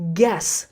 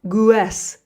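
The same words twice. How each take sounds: First: The u is silent after the g. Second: The u is sounded after the g. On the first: The speaker calls it right. "the pronunciation is guess" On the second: The speaker calls it wrong. "not guess"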